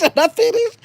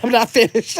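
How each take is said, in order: First: Playful high repeat. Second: Said in the usual way. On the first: Retold or imitated. Repeating chat message, pitch jump.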